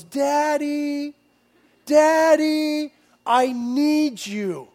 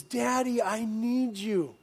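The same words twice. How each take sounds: First: Put-on high, child-like call of Daddy, drawn out; mock child shout from the bedroom; imitating a son calling. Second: Lightly imitating the son calling; child voice, gentle. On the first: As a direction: call like a small boy from his bed. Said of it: "he yells". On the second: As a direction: say it like a sleepy small boy. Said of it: "that little boy says".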